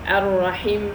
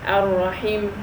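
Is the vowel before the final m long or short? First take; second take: short; short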